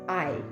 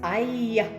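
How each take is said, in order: First: A plain vowel without a y-like glide. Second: An oy-like vowel with a y-like glide. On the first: "In Canadian or American, it's just I" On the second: "But in the Irish accent is I"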